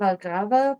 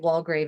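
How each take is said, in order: First: The name is said with a non-English pronunciation. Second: The name is said with an English pronunciation. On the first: "I'm going to say Jan Valgrava" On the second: "I'll say Walgrave as the English pronunciation"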